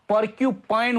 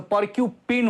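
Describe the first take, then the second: First: The last syllable has a long 'eye' vowel. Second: The last syllable has a short 'i' vowel. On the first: The speaker calls it right. "पर्क्युपाइन हुन्छ" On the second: The speaker calls it wrong. "पर्क्युपिन हुँदैन"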